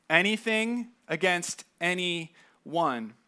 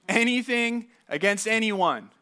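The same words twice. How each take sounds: First: Anything against anyone drawn out at half speed, each word weighted; slow, deliberate Anything. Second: Anything; Anything said a bit higher with the weight on it; stress on anything. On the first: Pastor drives the verse home to the congregation, slow and emphatic. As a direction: lean hard on Anything and slow right down. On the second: Pastor repeats the verse to his church, stressing Anything. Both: Shown as a demonstration.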